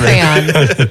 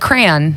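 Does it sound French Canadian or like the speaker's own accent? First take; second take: French Canadian; own accent. First: It is said with a French Canadian accent. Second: It is said in the speaker's own accent.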